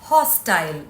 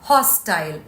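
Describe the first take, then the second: Both takes have the same delivery.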